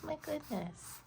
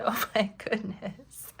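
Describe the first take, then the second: First: High, soft, squeaky cat voice. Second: Slow whispered laugh through the words. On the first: Pretend. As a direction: talk like a tiny cat. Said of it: "That was my cat voice". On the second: Retold or imitated. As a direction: whisper it, giggling. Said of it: "So I said".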